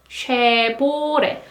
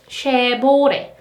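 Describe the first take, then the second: The two takes are said the same way.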